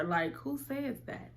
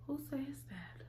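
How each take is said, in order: First: Said in the usual way. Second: Hushed, breathless whisper of disbelief; shocked whisper. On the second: Retold or imitated. A shocked whisper to herself about her friend's story. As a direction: whisper it like you can't believe your ears.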